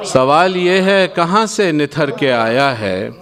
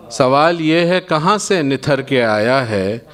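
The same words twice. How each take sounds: The two takes are said the same way.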